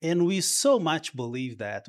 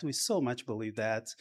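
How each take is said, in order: First: Said in the usual way. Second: Softer, hushed repeat of so much; soft echo. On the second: Real, not acted. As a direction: let "so much" sink in quietly. Repeats line for emphasis.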